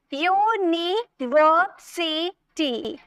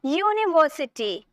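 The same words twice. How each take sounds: First: "यूनिवर्सिटी" very slow as यू, नि, वर, सि, टी; five long separate beats in यूनिवर्सिटी; syllable by syllable. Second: Said in the usual way. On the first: Shown as a demonstration. Teacher counting syllables, यूनिवर्सिटी split slowly in five. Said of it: "यू अलग हो गया". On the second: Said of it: "next देखिए".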